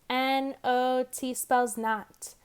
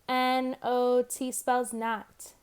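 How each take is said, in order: The two takes are said the same way.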